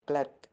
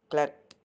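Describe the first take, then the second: No difference in how they are said.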